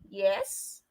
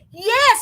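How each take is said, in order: First: It is said with hesitant uncertainty. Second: It is said with excited energy.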